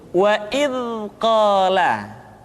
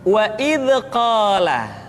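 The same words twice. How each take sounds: First: The dh sound flows out smoothly and softly. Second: The dh sound is bounced with a rebound. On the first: The speaker calls it right. "suara dialirkan dengan lembut" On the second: The speaker calls it wrong. "atau suara seringkali dipantulkan"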